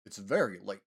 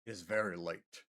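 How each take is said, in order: First: Said in the usual way. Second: Deadpan dude delivery; straight guy voice. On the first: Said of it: "Why did I say it like that?". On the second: Real, not acted. Answering chat in a low voice a viewer calls a straight man.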